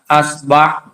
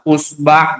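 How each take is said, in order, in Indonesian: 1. Kata itu diawali dengan vokal a. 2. Kata itu diawali dengan vokal u. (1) "Yang pertama hamzanya di fathah" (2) "Sekarang hamzahnya kita dhammah"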